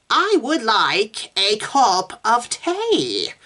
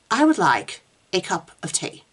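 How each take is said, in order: First: Very slow, high, stretched vowels; dragged-out words. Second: Detached, mildly disappointed monotone; flat and listless. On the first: Meg practising elongated vowels for Susan, dragged out. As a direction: drag each word out until it sounds unfamiliar. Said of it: "dragging the words out". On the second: Meg retrying Susan's tea sentence, flat and listless. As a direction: sound aloof, as if everything mildly disappoints you. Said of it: "her voice flat and listless". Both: A narrator's reading.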